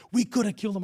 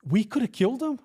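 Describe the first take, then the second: First: Higher-pitched quoted regret; retold cop's complaint. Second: Higher, questioning echo; incredulous echo. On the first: Cop looks back weeks later, retold complaint. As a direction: voice the other cop's complaint, lightly. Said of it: "I remember he goes". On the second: Retold or imitated. Officer answers the same cop, incredulous echo. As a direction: throw the words back as a disbelieving question. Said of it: "I go".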